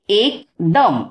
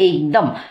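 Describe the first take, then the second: First: The word is read in two separate chunks. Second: The word is read smoothly in one go. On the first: "राहिलेली दोन अक्षरं एकत्र वाचायला सांगायची" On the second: "पूर्ण शब्द एका दमात वाचायला सांगायचा"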